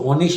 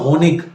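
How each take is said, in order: First: The word ends with a soft sh-like sound. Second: The word ends with a hard k sound. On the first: This is another regional way of saying it. "उसको होनिश भी पढ़ते हैं" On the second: This is one regional way of saying it. "कभी गे की आवाज पढ़ते हैं"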